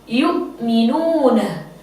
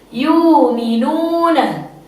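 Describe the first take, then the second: First: A glottal stop follows the first syllable. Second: The glottal stop is replaced by a long vowel. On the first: This is the reading of one transmitted tradition. "Qalun membaca dengan bitahqiq" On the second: This is the reading of another transmitted tradition. "biibdaliha wawan"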